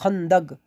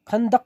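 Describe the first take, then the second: First: The word ends with a g sound. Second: The word ends with a k sound. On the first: This is how the word is spoken. "लेकिन बोलोगे खंदक" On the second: This is how the word is written. "खंदक कहीं लिखा हुआ है"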